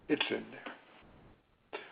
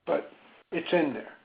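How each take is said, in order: First: Much softer and slow, almost to herself; soft slow repeat. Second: Said in the usual way. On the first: Real, not acted. Therapist reassuring a grieving caller, soft and slow. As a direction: let it sink in, hushed and slow.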